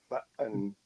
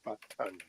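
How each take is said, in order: First: The middle T is a glottal stop. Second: The middle T is clearly pronounced. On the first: "they do what's called a glottal stop" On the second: "as opposed to"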